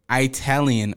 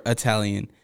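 First: "Italian" with a long EYE at the start; eye-talian. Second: Said in the usual way. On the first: Shown as a demonstration. Host asks girlfriend how it's said, eye-talian "Italian". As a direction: say "Italian" as eye-TAL-yun. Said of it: "she always says Italian". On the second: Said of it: "How do you say it?".

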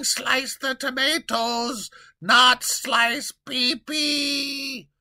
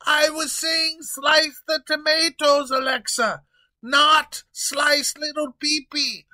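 First: "not" stressed, words drawn out very slowly; "Slice the tomatoes, not slice Peepee" dragged out, with "not" hit hard; slow emphatic quote. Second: Loud, high protest with "not" punched; frantic yelling king. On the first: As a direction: spell it out word by word. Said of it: "I was yelling". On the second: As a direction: correct the mistake in a panic. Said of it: "he continues yelling". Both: Acted.

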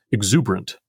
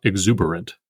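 First: "exuberant" with a vowel glided over, three syllables; elided exuberant. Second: "exuberant" with all four syllables; full exuberant. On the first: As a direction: squeeze "exuberant" to fit the iamb. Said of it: "we are meant to pronounce". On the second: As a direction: spell out every syllable of "exuberant". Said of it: "not exuberant". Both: Shown as a demonstration.

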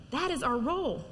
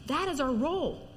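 Both takes have the same delivery.

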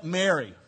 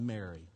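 First: Said in the usual way. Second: Soft, tender calling of the name; Jesus softly calling Mary by name, tender; loving. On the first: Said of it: "And when he said". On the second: Retold or imitated. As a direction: say "Mary." gently, like a dear friend. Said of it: "just as loving a voice".

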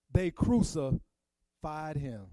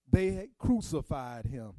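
First: Each word laid down slowly; solemn slow emphasis on crucified; slow, weighty repeat. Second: Said in the usual way. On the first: Shown as a demonstration. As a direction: let it sink in, one word at a time. Repeating the scripture line for weight.

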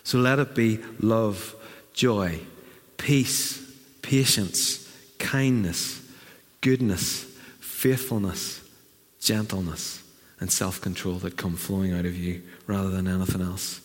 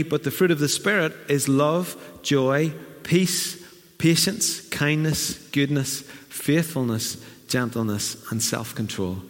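First: Slower, fading list, each word falling; a quiet, tender benediction; softening blessing. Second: Measured list of fruits, rising then falling; a gently cadenced recitation; scripture reading. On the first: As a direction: let each fruit settle gently. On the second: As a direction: read it out as a verse. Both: Acted.

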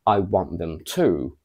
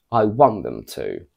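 First: Want and to both stressed, landing on to. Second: Want punched, to kept light; stress on want only. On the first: Teacher contrasting stress, first version. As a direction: give to full weight at the end. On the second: Teacher contrasting stress, second version. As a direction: hit want and drop the end. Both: Shown as a demonstration. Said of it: "comparing the first to the second sentence".

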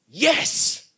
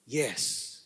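First: "yes" set apart with rising pitch; emphatic yes. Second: Low, soft "yes"; quiet submission. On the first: Preacher models answering the Holy Spirit, emphatic rising "yes". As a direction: push "yes" upward after a pause. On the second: Preacher answers despite reluctant flesh, quietly submitting with "yes". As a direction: drop "yes" down softly, giving in. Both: Acted.

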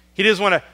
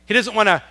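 Both takes have the same delivery.

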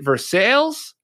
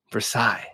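First: Versailles said the English way, ending in a hard Z; plain American reading of Versailles. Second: Versailles said the French way, the final S dropped, ending in an I sound; with dignity. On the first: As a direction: Versailles rhymed with sails, sounding the final S. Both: Shown as a demonstration. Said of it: "I pronounce it with some dignity".

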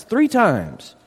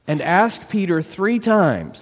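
First: "three" lifted high and hit; stress on three. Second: Said in the usual way. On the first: Shown as a demonstration. Preacher to congregation, repeating with weight on "three". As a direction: lean hard on "three".

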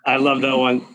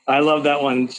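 No difference in how they are said.

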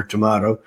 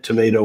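First: "tomato" with AH, tuh-MAH-toh; British-style pronunciation. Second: "tomato" with AY, tuh-MAY-toh; American pronunciation. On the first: Joking that both are correct, "tomato" as tuh-MAH-toh. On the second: Joking that both are correct, "tomato" as tuh-MAY-toh. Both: Shown as a demonstration. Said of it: "It depends on how you say it".

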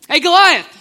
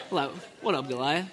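First: Loud, confident hail; bold call-out. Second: Low, laid-back, soft swagger; cool casual greeting. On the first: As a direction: call the giant out boldly. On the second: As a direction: greet the giant like it's nothing. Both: Retold or imitated. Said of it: "Probably didn't say it like that".

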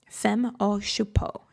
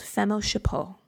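First: Whispered, slow, self-mocking French accent on Femme au Chapeau; horrible French accent. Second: Said in the usual way. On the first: Shown as a demonstration. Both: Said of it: "A horrible French accent there".

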